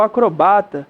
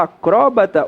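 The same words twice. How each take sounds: First: Acrobata stressed on BA, acro-BA-ta. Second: Acróbata stressed on CRÓ, a-CRÓ-bata. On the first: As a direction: move the stress of acrobata onto BA. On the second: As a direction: punch the Ó of acróbata. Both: Shown as a demonstration. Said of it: "Você pode falar".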